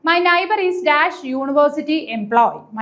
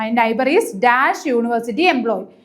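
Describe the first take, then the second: First: Very slow, slightly raised reading; dictating the exam sentence slowly; slow question reading. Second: Very slow reread in a lower voice; slow, lower second reading; slow repeat, a bit lower. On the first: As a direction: read it out word by word for students. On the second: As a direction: repeat it slowly, settling down. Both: Shown as a demonstration. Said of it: "first question എന്താണ്".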